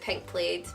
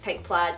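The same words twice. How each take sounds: First: Plaid is said in the speaker's own non-American way. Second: Plaid is said with the American pronunciation. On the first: "I pronounce it Pink Plaid" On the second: "I know Americans pronounce it Pink Plaid"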